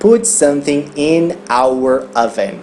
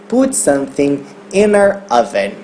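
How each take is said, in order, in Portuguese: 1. As palavras in e our são ditas separadamente. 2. As palavras in e our são ditas juntas. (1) "ela não vai falar put something in our oven" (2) "Vai falar put something in our oven. Inner oven"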